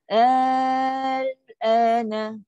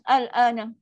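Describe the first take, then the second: First: The first vowel is held long. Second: The first vowel is cut short. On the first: The speaker calls it right. "itu bunyi dia" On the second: The speaker calls it wrong. "ada pula jenis tak panjang pula"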